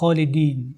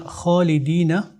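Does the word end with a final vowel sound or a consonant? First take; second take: consonant; vowel. First: The final vowel is dropped at the pause. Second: The word ends with a final vowel sound. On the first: "on va dire Khalidin. On va les dire avec waqf" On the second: "si on a Khalidina"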